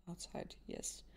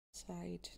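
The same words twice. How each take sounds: First: Outside whispered, much softer and lower; whispered to herself. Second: Said in the usual way. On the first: Real, not acted. Gamer murmuring to herself while reading the scene, whispered. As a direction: breathe the word outside almost silently. Repeating word to herself, fading.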